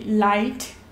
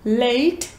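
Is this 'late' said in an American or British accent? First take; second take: British; American. First: It is said with a British-like vowel. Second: It is said with an American vowel. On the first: "se identificaria mais com o britânico" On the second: "o americano"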